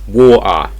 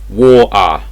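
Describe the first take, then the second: First: The middle T sound is dropped entirely. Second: The middle T sound is dropped entirely.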